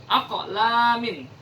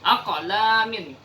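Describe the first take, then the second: First: The q sound is released with an echoing bounce. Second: The same.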